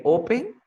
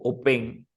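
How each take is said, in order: First: "open" as O-pen, questioning; stress on first syllable. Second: "open" as o-PEN; misplaced stress on the end of "open"; wrong final stress. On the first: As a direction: lean on the O of "open". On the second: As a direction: throw the weight onto -pen in "open". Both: Shown as a demonstration. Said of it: "¿Cómo se dice open o open?".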